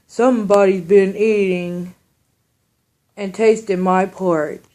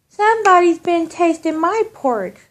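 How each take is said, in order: First: It is said in a great big bear voice. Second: It is said in a medium-sized bear voice.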